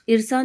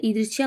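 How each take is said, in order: First: ईर्षा without y, eer-saa; wrong form. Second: ईर्ष्या with y glide, eersh-yaa; correct form. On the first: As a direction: leave the y out of ईर्षा. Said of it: "नहीं होता है". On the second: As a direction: sound the y in ईर्ष्या. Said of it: "होता है". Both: Shown as a demonstration.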